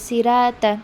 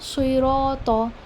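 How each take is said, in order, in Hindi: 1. पहली s ध्वनि हल्की और पतली है। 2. पहली s ध्वनि भारी और ज़ोरदार है। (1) "गलती अगर करते तो कैसे पढ़ते हैं" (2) "जबकि ये सुइरोतो"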